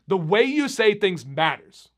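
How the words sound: The voice builds up toward the end. It gives firmness, anger or passion. "I built up"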